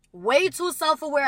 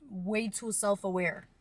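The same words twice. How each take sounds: First: WAY TOO SELF-AWARE said higher and much louder; emphatic repeat. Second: Said in the usual way. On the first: Real, not acted. Repeats phrase more emphatically.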